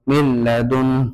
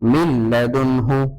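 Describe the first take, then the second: First: The word ends cut short on a consonant. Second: The word ends with a full vowel. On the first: The speaker calls it right. "আয়াতের শেষে গুল চিহ্ন আছে" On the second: The speaker calls it wrong. "এভাবে বলতে পারবো না"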